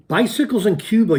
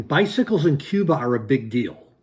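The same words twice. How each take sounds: First: Excited outburst. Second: Said in the usual way. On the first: Real, not acted. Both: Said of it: "you guys are laughing".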